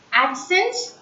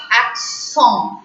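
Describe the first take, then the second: First: Said in the usual way. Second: "accent" said the French way, ak-SON; French pronunciation. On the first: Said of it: "Accents in English". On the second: Shown as a demonstration. Teacher gives learners the French word, French pronunciation of "accent". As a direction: say "accent" with a nasal French ending and silent t. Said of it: "in French we call it as".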